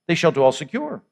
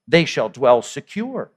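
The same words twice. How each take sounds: First: "secure" stressed, as if queried; questioning repeat. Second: "They shall dwell secure" slow and measured; slow declaration. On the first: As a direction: repeat "They shall dwell secure", leaning doubtfully on "secure". Repeats verse, then questions it. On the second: Reads verse out as a promise. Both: Shown as a demonstration.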